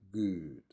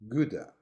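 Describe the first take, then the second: First: The word ends cleanly on the final d. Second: An extra vowel is added after the final d. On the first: The speaker calls it right. "instead of saying good" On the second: The speaker calls it wrong. "most Chinese English speakers say gooda"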